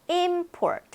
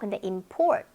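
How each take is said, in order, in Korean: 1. 강세는 첫 번째 음절에 있어요. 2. 강세는 두 번째 음절에 있어요. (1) "수입이 되겠죠" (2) "수입하다가 되겠죠"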